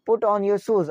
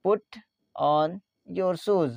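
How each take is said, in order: First: Said in the usual way. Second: "Put", "on", "your shoes", spaced out; word by word. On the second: Shown as a demonstration. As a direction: dictate "Put on your shoes" with pauses between words. Teacher repeats phrase word by word. ("Put on your shoes" शब्दों को अलग करके)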